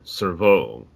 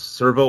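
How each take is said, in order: First: The stress is on the second syllable. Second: The stress is on the first syllable.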